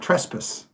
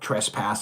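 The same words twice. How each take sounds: First: It is said with a British pronunciation. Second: It is said with a North American pronunciation. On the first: "Brits because they say Trespass" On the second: "as we call it in North America"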